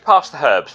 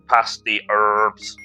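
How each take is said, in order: First: The h in herbs is pronounced. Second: The h in herbs is silent.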